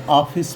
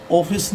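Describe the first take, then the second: First: ऑफिस as "AA-fis", open aa; open AA reading. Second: ऑफिस as "OH-fis", round O; rejected O reading. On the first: Teacher shows students the taught reading, ऑफिस with open aa. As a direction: open the first vowel of ऑफिस to aa. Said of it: "ऑफिस पढ़ेंगे". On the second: Teacher shows what not to read, ऑफिस with an O. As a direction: round the first vowel of ऑफिस. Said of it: "ऑफिस नहीं पढ़ेंगे". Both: Shown as a demonstration.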